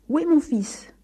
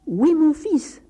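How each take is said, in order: First: Mildly angry, higher-pitched demand; defiant father demanding an answer; defiant grumble. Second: High, raised-voice angry question; insistent father, loud and high; louder repeated demand. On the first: A narrator's reading. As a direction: challenge the priest gruffly. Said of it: "grommela-t-il en défiant le curé". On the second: Acted. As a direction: call it out to someone hard of hearing. Father repeats demand to deaf priest.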